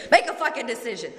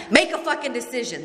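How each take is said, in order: First: Higher, fast, with a laugh breaking through; laughing sponsor quote. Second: Higher, fast, exasperated command from the sponsor; sponsor's blunt order. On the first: Retelling her sponsor's blunt order, laughing through it. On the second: Sponsor losing patience with her indecisive sponsee, sharp fast command. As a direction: snap it out like a fed-up sponsor. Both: Retold or imitated. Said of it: "that's what she said to me".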